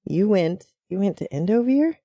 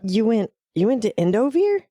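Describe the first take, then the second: First: It is said in a neutral tone. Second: It is said in a surprised tone.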